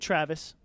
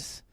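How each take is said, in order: First: It is said with an American English accent. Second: It is said with a Spanish accent.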